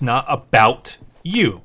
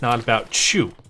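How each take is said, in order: First: The last word begins with a clear y sound. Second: The words run together into a ch sound. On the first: The phrase is heard as intended. "She's saying it's not about you" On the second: Listeners hear it as a name. "our typical accent of things running together, it was coming out as"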